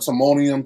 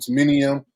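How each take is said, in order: First: The second vowel is an 'o' sound. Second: The second vowel is an 'i' sound. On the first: The speaker calls it right. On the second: The speaker calls it wrong.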